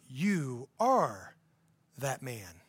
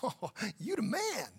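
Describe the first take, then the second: First: It is said in a serious, solemn tone. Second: It is said in a playful, casual tone.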